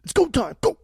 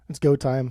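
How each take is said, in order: First: High, loud hype call; hyped announcement. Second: Said in the usual way. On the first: Real, not acted. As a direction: announce it like a game-show start. Hyping the start of the ranking.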